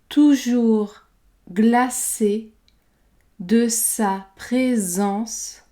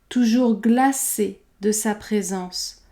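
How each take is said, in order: First: The phrase is said slowly and carefully. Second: The phrase is said at normal conversational speed. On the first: "prononcer la phrase lentement" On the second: "puis à vitesse normale"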